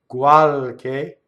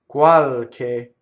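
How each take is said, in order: No difference in how they are said.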